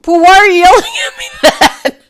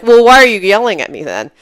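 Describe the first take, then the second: First: High, loud retort through laughter; laughing retort. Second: Said in the usual way. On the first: Retold or imitated. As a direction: laugh as you throw it back. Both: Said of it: "I'm not laughing".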